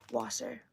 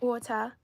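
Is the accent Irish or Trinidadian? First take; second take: Irish; Trinidadian. First: It is said in an Irish accent. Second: It is said in a Trinidadian accent.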